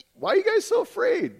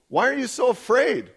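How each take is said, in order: First: Very high-pitched mock bewilderment; comic incredulous question. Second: Raised, emphatic scripture quote; emphatic questioning. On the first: Just-woken Jesus puzzled at his disciples, comic high-pitched question. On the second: Acted. Jesus questioning his disciples after the storm, emphatic question. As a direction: press the question firmly, pitched up.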